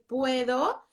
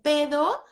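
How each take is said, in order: First: The diphthong is pronounced in full. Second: The diphthong is dropped, leaving a single vowel. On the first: The child has mastered the diphthong. The speaker calls it right. "y ya dices puedo" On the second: A young child has not yet mastered the diphthong. The speaker calls it wrong. "antes dicen pedo"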